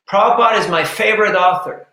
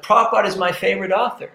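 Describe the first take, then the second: First: Said in the usual way. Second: Rattled off quickly, all in one breath; quick, eager imitation of the man; blurted out fast. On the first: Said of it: "and he says". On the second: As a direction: fire the line out fast like a proud fan. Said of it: "It's like he came out, you know, like that".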